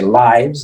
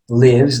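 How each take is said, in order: First: The vowel sounds like 'eye'. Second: The vowel sounds like 'ih'. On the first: It is the plural noun for lives. "like vidas" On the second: It is the verb meaning someone lives. "like vive or vives"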